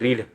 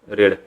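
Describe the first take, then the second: First: The vowel is long, like 'reed'. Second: The vowel is short, like 'red'. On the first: It is the present form of the verb. "R E A D रीड" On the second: It is the past form of the verb. "V two असताना ना रेडचा उच्चार"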